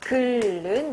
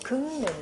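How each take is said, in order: First: The consonants in the middle are both l sounds. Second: The consonants in the middle are ng and n. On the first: The speaker calls it wrong. "기억의 비표준 발음을 확인하라고 했으니까 얘를 글은 이렇게 발음하고 있는" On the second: The speaker calls it right. "기억의 표준 발음은 어딨니? 라고 했더니 여기 있네요"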